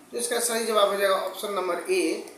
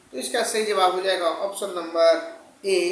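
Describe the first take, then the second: No difference in how they are said.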